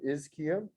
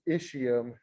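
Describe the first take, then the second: First: The middle consonant is a K sound. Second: The middle consonant is not a K sound. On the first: "a C H makes a K sound" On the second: "you will hear it pronounced ischium as well"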